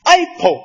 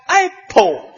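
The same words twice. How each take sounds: First: Said in the usual way. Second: Apple said slowly as "ai-po" with a falling tune; showing off Apple as "ai-po"; careful Apple. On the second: Shown as a demonstration. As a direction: lean on the Apple sounds like a teacher. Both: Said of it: "你听着发音".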